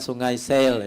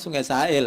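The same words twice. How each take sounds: First: Sail is said like the English word sail. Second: Sail is said in the local Pekanbaru way. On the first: This is how outsiders say the name. The speaker calls it wrong. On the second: This is how local people say the name. The speaker calls it right. "kalau orang kita Pekanbaru ini sebutnya"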